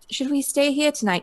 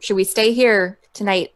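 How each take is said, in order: First: It is said in a princess-like voice. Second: It is said without the character's deep voice.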